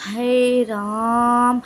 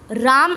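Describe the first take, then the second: First: हे राम with the आ of राम held very long; prolonged pluta vowel. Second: Said in the usual way. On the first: Shown as a demonstration. Teacher stretching राम to show three matras. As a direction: draw out the आ in राम like a call. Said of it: "देख रहे हो बहुत time लग रहा है उसमें". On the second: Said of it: "राम is different".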